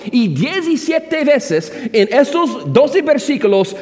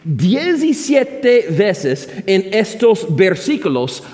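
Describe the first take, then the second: First: "doce" subrayado, más agudo; énfasis en doce. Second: Said in the usual way. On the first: Shown as a demonstration. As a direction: recalca la palabra "doce". Predicador repite con énfasis. (repite la frase subrayando "doce")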